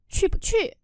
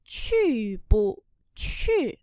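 First: Quick, run-together syllables, higher pitch; sped-up practice reading. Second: Slow, separated syllables with a light middle; slow practice reading. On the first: Teacher shows the next practice step, quicker and joined. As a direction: say it swiftly as one unit. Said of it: "sau đó tăng dần tốc độ lên". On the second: Teacher shows learners how to practise first, slowly. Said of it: "luyện tập đọc chậm trước". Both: Shown as a demonstration.

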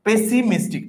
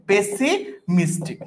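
First: Said in the usual way. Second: Slow, drawn out. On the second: Shown as a demonstration. Teacher showing students the spelling, very slowly. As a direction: stretch pessimistic out slowly, syllable by syllable. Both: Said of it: "P দিয়ে double S হবে".

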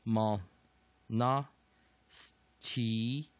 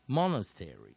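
First: Very slow "monastery", broken into separate syllables; "monastery" sounded out slowly for learners. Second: Said in the usual way. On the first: Shown as a demonstration. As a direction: stretch out each syllable of "monastery", pausing between. Teacher breaks the word into syllables.

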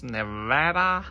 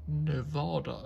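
First: "Nevada" with a short "a" as in "cat", loud and drawn out; American pronunciation. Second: "Nevada" with a long "ah" in the middle; speaker's own pronunciation. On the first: Reviewer announcing the brewery's state, "Nevada" said the American way with short "a". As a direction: call out "Nevada" slowly, American-style middle vowel. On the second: Reviewer giving their own version, "Nevada" with a broad "ah". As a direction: say "Nevada" as "ne-VAH-da", falling at the end. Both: Shown as a demonstration. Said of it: "as I would say".

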